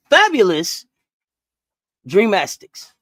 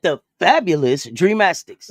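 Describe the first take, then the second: First: Slow, grand introduction of the fabulous Dreamastics; grand announcement. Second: Slow, laughing showman's intro of The fabulous Dreamastics; grand announcement. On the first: To a co-host, unveiling her joke team name with a flourish. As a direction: present the team like a showman. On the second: Asked to repeat it, she gives the name the same flourish. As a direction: say it like a proud emcee. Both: Shown as a demonstration. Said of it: "you gotta say it like that".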